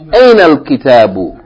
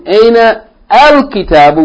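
First: The 'al' runs straight on from 'aina'. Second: The 'al' starts with its own separate vowel. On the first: The speaker calls it right. "We can join these two words" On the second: The speaker calls it wrong. "instead of saying aina al-kitabu"

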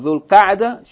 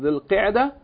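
First: The vowel after Q is an 'a' sound. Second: The vowel after Q is not an 'a' sound. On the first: The speaker calls it right. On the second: The speaker calls it wrong.

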